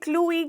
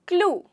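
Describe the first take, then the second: First: An extra ee sound is added at the end. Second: The word ends on the oo sound. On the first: The speaker calls it wrong. "इसे क्लू ई क्यों नहीं कहते?" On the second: The speaker calls it right. "ई जो है वो silent हो जाता है"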